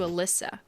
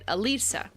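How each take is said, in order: First: The middle syllable sounds like 'liss'. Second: The middle syllable sounds like 'lee'. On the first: The speaker calls it wrong. "As opposed to Alyssa" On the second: The speaker calls it right. "pronounced like Mona Lisa without the moan"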